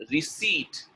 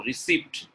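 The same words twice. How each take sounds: First: RECEIPT with a silent p; correct pronunciation. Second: RECEIPT with the p sounded; wrong pronunciation. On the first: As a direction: say RECEIPT as "ri-SEET". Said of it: "Receipt is the correct one". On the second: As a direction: say RECEIPT as "ri-SEEPT". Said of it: "correct answer is first one". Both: Shown as a demonstration.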